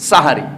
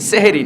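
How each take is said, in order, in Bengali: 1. শব্দটি 'sah' ধ্বনি দিয়ে শুরু হয়। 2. শব্দটি 'seh' ধ্বনি দিয়ে শুরু হয়। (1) "শব্দটা হলো সাহারি" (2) "সেহেরি না"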